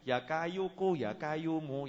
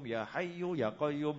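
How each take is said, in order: First: The phrase is said as kayuku and qayyumu. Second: The phrase is said as hayyu and qayyum. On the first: The speaker calls it wrong. "Jangan sampai seperti orang dapat ijazah" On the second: The speaker calls it right. "Dengar orang baca ya hayyu ya qayyum"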